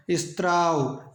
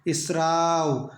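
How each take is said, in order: First: स्त्राव said slowly with a त्र cluster; स्त्राव, the wrong form with त्र, drawn out; slow demo of the mistaken स्त्राव; wrong form shown. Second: स्राव very slow, स joined straight to र; very slow teacher demo of स्राव; correct pronunciation. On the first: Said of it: "यहाँ भी त्र नहीं आएगा". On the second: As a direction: stretch स्राव out slowly, no त sound. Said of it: "स के साथ र आएगा". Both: Shown as a demonstration.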